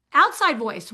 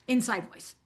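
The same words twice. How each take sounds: First: Plain spoken voice, full volume again; outside voice. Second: Softly, like a muttered aside; a quiet aside said under the breath; inside voice. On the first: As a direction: back up to normal speaking level. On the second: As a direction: drop it much softer, almost to yourself. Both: Shown as a demonstration.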